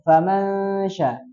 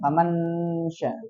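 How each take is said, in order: First: The n is hidden in a nasal hum. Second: The n is pronounced clearly and fully. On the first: The speaker calls it right. "Jadi murni samarkan aja" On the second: The speaker calls it wrong. "Jangan faman famansya"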